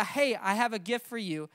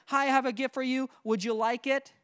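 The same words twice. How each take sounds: First: Right way, stating. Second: Wrong way, asking. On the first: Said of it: "Just say". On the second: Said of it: "Don't say". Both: Shown as a demonstration.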